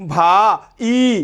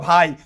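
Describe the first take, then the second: First: The two vowels are split into separate syllables. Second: The two vowels glide together as one syllable. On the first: The speaker calls it wrong. "তুমি কি বলবা ভা ই বলবা? No" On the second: The speaker calls it right. "তুমি বলবা ভাই"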